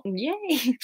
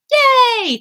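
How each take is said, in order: First: High but soft little yay; a muted cheer, just in case; small hedged cheer. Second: Very high, loud yay; excited cheer. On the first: Hedged cheer if it's not you. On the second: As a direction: cheer out loud for a new subscriber. Cheers a new subscriber. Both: Real, not acted.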